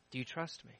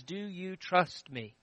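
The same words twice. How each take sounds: First: Very soft repeat, rising at the end; hushed God voice. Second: Soft and slow, a gentle question; gentle God voice. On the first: God asks the widow again, barely above a breath. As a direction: let it fall to almost nothing, ending on a lift. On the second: God softly asks the widow whether she trusts him. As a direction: ask it softly, slowly, as God to her. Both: Acted.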